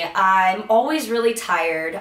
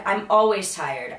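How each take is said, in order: First: "always" stressed, rising end; rising complaint. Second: "always" stressed, then falling; resigned fall after "always"; falling complaint. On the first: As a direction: whine it with a rise on "always". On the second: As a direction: drop it flat after "always". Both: Retold or imitated.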